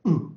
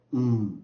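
First: U cut short and loud; a quick, punched short "u" for U. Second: U held long and loud. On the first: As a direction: clip U off as a short vowel. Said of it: "短的念U". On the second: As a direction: draw the U out into a sustained "oo". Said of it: "长的念U". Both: Shown as a demonstration.

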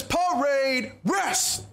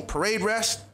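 First: Long drawn-out parade-ground command, pitched up; drill command. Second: Said in the usual way. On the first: Retold or imitated. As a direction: call the order out slowly, stretching each word. Drill instructor calls out a command.

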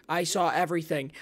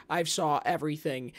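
Both takes have the same delivery.

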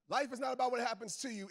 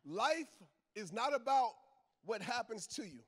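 First: Said in the usual way. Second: "Life" alone, a pause, then "is not about", a pause, then "what happens to you"; slow, with pauses. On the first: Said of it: "I'm gonna repeat that". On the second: Shown as a demonstration. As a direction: break it into three slow pieces. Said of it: "I'll say it slow".

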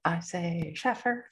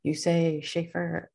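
First: Slow SHAFFER, first vowel as in "cat"; deliberate SHAFF-er for Shaffer; Shaffer with short a. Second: Slow SCHAEFER, first vowel as in "shape"; deliberate SHAY-fer for Schaefer; Schaefer with long a. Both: Shown as a demonstration.

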